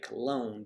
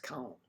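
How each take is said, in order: First: The name has an American English pronunciation. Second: The name has a German-like local pronunciation. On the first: The speaker calls it wrong. "Americans would say Cologne" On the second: The speaker calls it right. "but I know it's Cologne"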